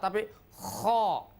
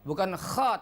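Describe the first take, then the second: First: It is heavy, with the tongue back raised. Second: It is light, with the tongue back not raised. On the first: The speaker calls it right. "pangkal lidah terangkat" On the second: The speaker calls it wrong. "Tidak cukup kalau kita de dengan melafalkan kha"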